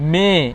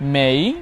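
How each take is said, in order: First: The vowel stays pure without gliding. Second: The vowel glides toward an ee sound. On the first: The speaker calls it wrong. "আমরা যদি বলি" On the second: The speaker calls it right. "আমার মতো করে আমি উচ্চারণ করব"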